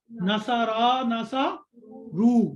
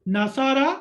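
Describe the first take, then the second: First: ناسارا and NASA رو drawn out slowly; teacher slowly reciting words to be learned; slow recitation. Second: Said in the usual way. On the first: Shown as a demonstration. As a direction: chant the words slowly for memorizing. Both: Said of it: "ٹھیک ہے،".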